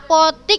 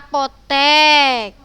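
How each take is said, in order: First: The last vowel sounds like 'i'. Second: The last vowel sounds like 'e'. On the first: The speaker calls it wrong. "Yang benar mana?" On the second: The speaker calls it right.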